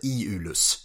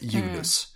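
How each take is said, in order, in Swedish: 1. Namnet uttalas med tre stavelser. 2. Namnet uttalas med två stavelser. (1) "uttalas med 3 stavelser. Alltså Iulus" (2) "inte Iulus"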